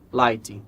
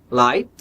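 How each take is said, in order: First: It ends with an added ee vowel sound. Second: It ends cleanly on the final t sound. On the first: The speaker calls it wrong. "costuma virar lighting" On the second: The speaker calls it right. "Light costuma virar"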